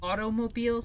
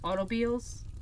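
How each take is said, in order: First: The whole word is pronounced in full. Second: The first part of the word is dropped. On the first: "instead of saying automobiles" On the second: "parts of words are missing and apostrophes are used to give Dorothy a kind of accent"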